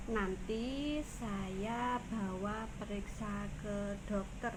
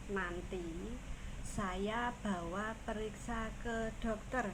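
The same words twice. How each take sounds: The two takes are said the same way.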